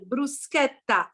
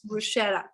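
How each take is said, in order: First: The middle consonant is a hard k sound. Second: The middle consonant is a soft sh sound. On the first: The speaker calls it right. "remember to pronounce correctly the word bruschetta" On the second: The speaker calls it wrong. "and not bruschetta"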